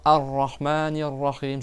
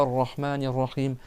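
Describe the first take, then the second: First: AR-RAHMANIR RAHIM starting on a clear "Ar"; article pronounced. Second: AR-RAHMANIR RAHIM begun straight on "Rrahmanir", no "A"; article dropped. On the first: Teacher models how to resume after Allah, article pronounced. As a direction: sound the opening A of Ar-Rahmanir Rahim. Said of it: "tu vas reprendre en disant". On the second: Teacher shows the wrong resumption, article missing. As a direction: leave out the opening "Ar" of Ar-Rahmanir Rahim. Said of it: "Je dis pas". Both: Shown as a demonstration.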